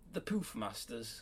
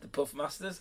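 First: The first vowel is long, as in poof. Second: The first vowel is short, as in puff.

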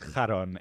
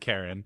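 First: The name is said with a Greek pronunciation. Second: The name is said with an English pronunciation. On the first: "it's of course pronounced Charon in Greek" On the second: "but we'll call him Karen"

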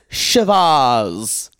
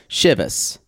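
First: The ending rhymes with Shiraz. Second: The ending does not rhyme with Shiraz. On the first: "Like it rhymes with Shiraz" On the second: "Always heard it as Chivas"

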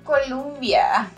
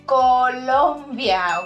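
First: The second syllable has an 'uh' vowel. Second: The second syllable has a clear 'o' vowel. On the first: The speaker calls it wrong. "Not Columbia" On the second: The speaker calls it right. "Colombia, okay?"

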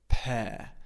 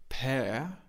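First: The final R sound is not pronounced. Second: The final R sound is pronounced. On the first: The speaker calls it right. "the R at the end of the word we don't pronounce" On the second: The speaker calls it wrong. "So we don't say pear"

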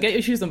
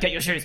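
First: It is said in the speaker's normal voice. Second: It is said in a gruff Batman voice.

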